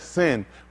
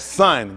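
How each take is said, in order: First: The vowel sounds like the one in 'sin'. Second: The vowel sounds like the one in 'son'. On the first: It is the pronunciation others imposed. The speaker calls it wrong. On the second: It is the original pronunciation. The speaker calls it right. "the Greeks will tell you that son"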